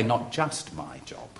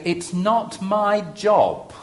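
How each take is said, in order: First: Much softer, a gentler correction; softened correction. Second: Blunt and defiant, slowly drawn out; bolshy. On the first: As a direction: take it back quietly and mildly. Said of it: "Or shall I say". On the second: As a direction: say it stubbornly as the pastor. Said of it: "I'm gonna be a bit bolshy here as the pastor". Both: Shown as a demonstration.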